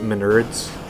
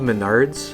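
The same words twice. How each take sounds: First: The name is said with a childish mispronunciation. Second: The name is said with its standard pronunciation. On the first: The speaker calls it wrong. "when I was a little kid, I would call it Menards" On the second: The speaker calls it right. "it's called Menards"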